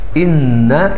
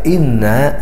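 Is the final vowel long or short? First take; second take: short; long. First: The final vowel is short. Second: The final vowel is long. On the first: It means indeed. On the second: It means indeed we.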